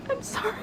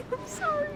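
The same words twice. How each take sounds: The two takes are said the same way.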